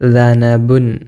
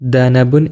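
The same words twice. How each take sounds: First: The word begins with a soft 'th' sound. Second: The word begins with a hard 'd' sound. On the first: The speaker calls it right. "ഇത് പുള്ളിയുള്ള ദാൽ" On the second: The speaker calls it wrong. "ഒരിക്കലും ദനബുൻ എന്ന് ഉച്ചരിക്കരുത്"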